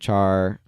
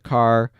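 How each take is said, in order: First: The word begins with a ch sound. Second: The word begins with a k sound. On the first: "I usually say char" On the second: "some people pronounce it car"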